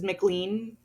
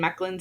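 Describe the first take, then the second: First: The name is said like "McLean." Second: The name is said like "Mechlin." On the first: The speaker calls it wrong. "McLean sounds weird" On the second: The speaker calls it right. "Mechlin sounds better"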